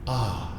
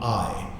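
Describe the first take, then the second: First: The vowel is a plain open ah without glide. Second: The vowel glides from ah toward ee. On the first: The speaker calls it right. "we only focus on the lift point, which is ah" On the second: The speaker calls it wrong. "not I"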